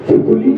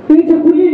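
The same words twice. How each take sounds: First: Said in the usual way. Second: Higher, louder call toward the house. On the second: Acted. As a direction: call her to come out. Sick man calling his daughter. (उंच, मोठ्या आवाजात हाक)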